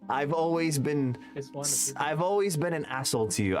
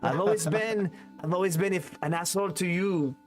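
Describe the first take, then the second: First: It is said in the speaker's ordinary accent. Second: It is said in a put-on French accent.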